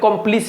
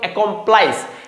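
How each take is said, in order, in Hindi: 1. आखिरी अक्षर में छोटा 'iss' वाला स्वर है। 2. आखिरी अक्षर में लंबा 'ice' वाला स्वर है। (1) "या कहीं कहीं आपको एकम्प्लिस भी बोला जाता है" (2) "इसको क्या पढ़ते हैं हम लोग? एकम्प्लाइस"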